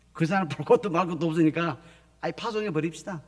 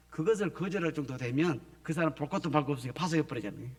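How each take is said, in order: First: Loud, decisive church elder voice; proclaiming the decision with force; emphatic louder quote. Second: Said in the usual way. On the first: Retold or imitated. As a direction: announce it like the final decision.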